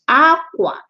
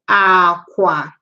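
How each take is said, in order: First: It has the tone pattern meaning cloth. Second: It has the tone pattern meaning bed. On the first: It means cloth. "While that one is aqua. Aqua, so cloth" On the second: It means bed. "aqua, bed"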